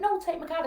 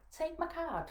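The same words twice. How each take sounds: First: Louder, high-pitched nurse pressing the point; acted insistence. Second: Higher-pitched imitation of the nurse; acted nurse's request. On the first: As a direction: push back as the insistent nurse. Nurse insists, retold quarrel. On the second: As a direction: offer it firmly without raising the volume. Nurse first offers her card.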